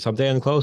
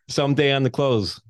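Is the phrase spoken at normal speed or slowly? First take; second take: normal; slowly. First: The phrase is spoken at normal conversational speed. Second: The phrase is spoken slowly and deliberately.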